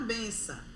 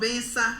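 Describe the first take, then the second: First: It is said in a warm, casual tone. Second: It is said in a harsh, aggressive tone. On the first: It is an affectionate, casual form of address. "Numa forma assim coloquial" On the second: The same word is used with hostility. "De uma forma que você vê que é agressiva"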